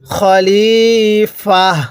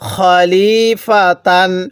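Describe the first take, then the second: First: The word ends on an open vowel, ending dropped. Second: The word ends with a full -tan ending. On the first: The reader stops at this point. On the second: The reading continues without stopping.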